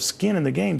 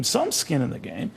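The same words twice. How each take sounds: First: Said in the usual way. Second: Slow down and lift the word "some"; stress on SOME. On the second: Real, not acted. Interviewer qualifies the critics' point for Eric, stress on "some". Corrects himself with added word.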